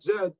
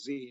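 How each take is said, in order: First: The letter name is said the non-American way. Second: The letter name is said the American way. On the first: This is how the letter is named outside the United States. "not Z" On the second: This is how the letter is named in the United States. "here in the United States, we pronounce the twenty-sixth letter of the alphabet as Z"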